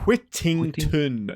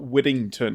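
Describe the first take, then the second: First: The middle consonant is a clear T sound. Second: The middle consonant sounds like a D. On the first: The speaker calls it right. "There's no D's in my name" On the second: The speaker calls it wrong.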